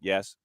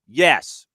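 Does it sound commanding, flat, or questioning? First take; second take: flat; commanding. First: It is said flat and deadpan. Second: It is said firmly and with authority.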